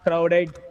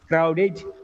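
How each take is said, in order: First: The final syllable is pronounced as 'ed'. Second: The final syllable is pronounced as 'id'. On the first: The speaker calls it wrong. "It's not crowded" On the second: The speaker calls it right. "It is crowded"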